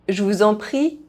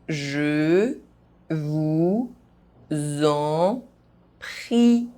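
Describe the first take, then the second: First: The phrase is spoken fast. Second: The phrase is spoken very slowly. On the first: "fast, as a native speaker would do" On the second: "very slowly"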